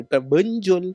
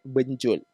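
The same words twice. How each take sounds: First: Benjol with a schwa first vowel. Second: Benjol with an open e; taling e. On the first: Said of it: "Kalau benjol, E pepet". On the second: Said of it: "Kalau bunyi dia be, e". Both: Shown as a demonstration.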